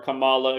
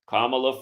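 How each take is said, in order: First: The name is pronounced the wrestler way. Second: The name is pronounced the usual way.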